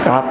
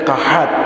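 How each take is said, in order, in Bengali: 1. শব্দটি মাঝখানের 'h' ধ্বনি ছাড়া উচ্চারণ করা হয়। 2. শব্দটি মাঝখানের 'h' ধ্বনি সহ উচ্চারণ করা হয়। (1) "গ্রাম দেশে কয় কাত" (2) "আসলে কাহাত"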